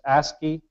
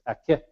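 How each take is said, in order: First: The word is said in its Cree form. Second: The word is said in its Ojibwe form. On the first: It is used among Cree nations. "when we're in Cree nations, it's ASCII" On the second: It is used among Ojibwe nations. "when we're in um, Ojibwe, it's Akit"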